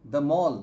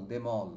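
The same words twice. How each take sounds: First: "the mall" loud, m opening the second word. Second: "the mall" said as them + all, lower. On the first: Teacher contrasting sound-alike phrases, said as the mall. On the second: Teacher contrasting sound-alike phrases, said as them all. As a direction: say "the mall" like them all, m closing the first word. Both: Shown as a demonstration. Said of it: "slowly pronounce করি".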